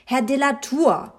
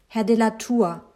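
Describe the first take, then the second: First: Higher, more urgent call; insistent rousing. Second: Measured attempt to get attention; trying to rouse. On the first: Narrator calls the absent father a second time, insistent. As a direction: call him sharply out of his daydream. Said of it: "ihn wach zu rütteln". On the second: Narrator tries to rouse the absent father, politely urgent. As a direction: address him to shake him awake. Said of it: "versuchte ich, ihn wach zu rütteln". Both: A narrator's reading.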